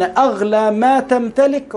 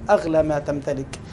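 First: "أغلى ما تمتلك" drawn out slowly with weight; emphatic stress. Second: Said in the usual way. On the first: Real, not acted. Preacher telling listeners what is most precious, slow and emphatic. Preacher hammers a key phrase.

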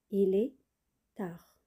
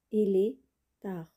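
No difference in how they are said.

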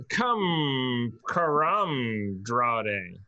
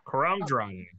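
First: Karamdrade very slowly stretched out, syllable by syllable; sounding out Karamdrade. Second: Said in the usual way. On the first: Real, not acted. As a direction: feel your way slowly through "Karamdrade". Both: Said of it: "I would love to, uh, see a pronunciation".

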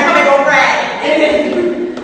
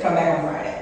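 First: Loud, high, drawn-out order; mock mom's holler. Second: Matter-of-fact order, lightly imitated rasp; raspy casting lady. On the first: Mom ordering her daughter back, hammed-up holler. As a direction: holler it slowly as an insistent mother. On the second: Casting woman dismissing an auditioner, lightly imitated raspy voice.

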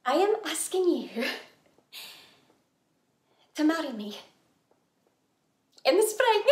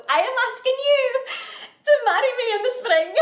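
First: Halting, with long pauses before each phrase; hesitant proposal. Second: Loud, higher, in one determined rush; emphatic proposal. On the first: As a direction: propose carefully, piece by piece. First, tentative marriage proposal. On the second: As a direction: propose boldly, breaking towards a laugh. Insistent repeat of the proposal. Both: Acted.

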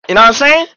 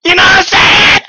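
First: Louder, emphatic question. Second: High, loud shouted question; shouting. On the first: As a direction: push the question at chat. Repeats the question. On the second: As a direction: yell it at chat. Repeats it, shouting. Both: Real, not acted.

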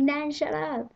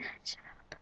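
First: Higher, louder embarrassed plea; granddaughter's embarrassed outburst; embarrassed giggly plea. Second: Hushed embarrassed whisper; whispered plea. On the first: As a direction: scold nan through giggles. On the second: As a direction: whisper it so nobody hears. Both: Retold or imitated. Embarrassed by nan in shop.

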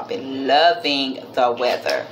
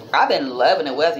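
First: Low, leisurely emphasis on "loving"; emphatic repeat. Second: Said in the usual way. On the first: Real, not acted. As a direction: savor "loving the weather", stretching LOVING. Repeats line, stretching it for emphasis.

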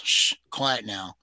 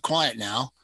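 First: Calm the little dog, slowly; soothing hush. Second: Said in the usual way. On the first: Acted. Woman cradles her dog and slowly soothes it. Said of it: "bent down and let him jump". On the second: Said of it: "she said to the dog".

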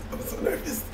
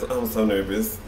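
First: A breathy, high whisper; whispered nerves before the reveal; nervous whisper. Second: Said in the usual way. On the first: Real, not acted. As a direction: whisper it to yourself, jittery. Nervous before test result.

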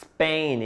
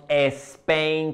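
First: SPAIN starting on a long pure S; correct Spain. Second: SPAIN as "es-PEN", with an E in front; wrong Spain. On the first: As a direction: say "Spain" as "sss-pen", no vowel first. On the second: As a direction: show "Spain" begun wrongly like España. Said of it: "No decimos Spain como España". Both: Shown as a demonstration.

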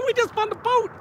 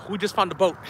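First: High-pitched, laughing disbelief; giddy laugh all through the words. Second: Said in the usual way. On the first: Real, not acted. Laughing over finding a boat.

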